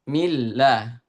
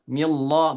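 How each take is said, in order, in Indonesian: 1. Bunyi l tipis dan ringan. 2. Bunyi l tebal dan berat. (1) "tapi millah. Millah di ditipiskan" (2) "bukan dibaca tebal, millah bukan"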